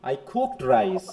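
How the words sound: The stress falls on the word cooked. The cooking was actually done. "কুকের উপর"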